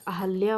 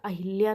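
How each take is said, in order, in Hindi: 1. बीच का स्वर 'a' है, इसलिए Ahalya। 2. बीच का स्वर 'i' है, इसलिए Ahilya। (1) "हमारा अहल्या होता है" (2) "अहिल्या नहीं"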